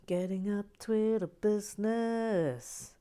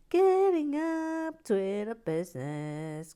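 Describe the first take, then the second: First: Said in the usual way. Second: Higher, louder and slow, like an announcement; hammed-up announcer. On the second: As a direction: boom it out like a grand announcer. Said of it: "lift music".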